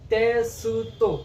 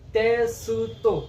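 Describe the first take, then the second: First: The middle u vowel is clearly pronounced. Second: The same.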